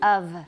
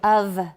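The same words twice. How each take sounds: The two takes are said the same way.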